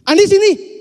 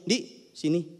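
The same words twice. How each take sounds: First: Much higher and louder, snapping the name out; sharp shout. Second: Said in the usual way. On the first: Shown as a demonstration. Teacher shows an angry summons, loud and sharp. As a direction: call him over like you're fed up. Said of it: "Itu kan beda banget". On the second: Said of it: "intonasi itu membuat kata yang sama artinya jadi lain".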